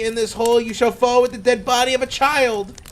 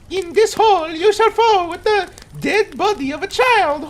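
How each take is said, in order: First: It is read in the speaker's normal voice. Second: It is read in a put-on Mario voice.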